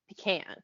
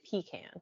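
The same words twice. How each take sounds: First: "pecan" as pee-can without the stress on the second syllable; rejected stress pattern. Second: "pecan" as pee-CAN, weight on the last syllable; second-syllable stress. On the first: Showing what she wouldn't say, PEE-can stress. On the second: Showing what she would say, pee-CAN stress. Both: Shown as a demonstration. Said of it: "put the emphasis on the second syllable".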